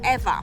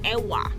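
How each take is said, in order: First: The middle consonant is a V sound. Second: The middle consonant is a W sound. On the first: "in Hawaiian language, W in the middle is pronounced V" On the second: "if from the U S mainland, you pronounce it Ewa"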